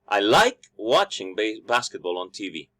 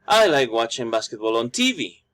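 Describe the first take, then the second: First: The stress is on like. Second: The stress is on TV.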